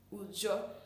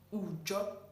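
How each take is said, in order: First: The word begins with an 'oo' vowel. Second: The same.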